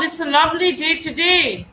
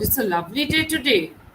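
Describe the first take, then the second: First: It is said with high energy and enthusiasm. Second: It is said in a mocking, sarcastic tone. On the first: The speaker is delighted about the day. "My energy, my enthusiasm, my emotions are more expressed here" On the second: The speaker means the day is not lovely. "I'm totally denying the fact that it could be a lovely day today"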